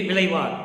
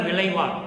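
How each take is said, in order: The two takes are said the same way.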